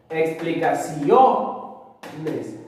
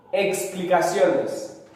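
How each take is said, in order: First: "Explicaciones" very slowly, leaning hard on "cio", then a pause before "nes"; stressed penultimate syllable. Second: Said in the usual way. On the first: Shown as a demonstration. Teacher showing students where the stress falls, "Explicaciones" broken after a strong CIO. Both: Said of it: "la mayor fuerza de voz está ahí".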